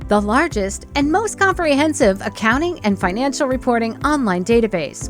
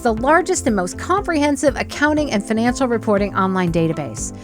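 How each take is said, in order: First: The words are separated in a choppy, robotic way. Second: The words run together in one smooth flow. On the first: The speaker seems to be reading, not talking. The speaker calls it wrong. "sounds like you're reading it, or it sounds like you're being a robot" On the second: It names one single thing. The speaker calls it right. "make it sound like it's one thing"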